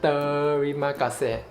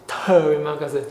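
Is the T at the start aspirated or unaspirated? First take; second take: unaspirated; aspirated. First: The first T is unaspirated, with no puff of air. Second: The first T is aspirated, with a puff of air. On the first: The speaker calls it right. "the T alphabet in Malay language is actually unaspirated" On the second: The speaker calls it wrong. "not terima kasih"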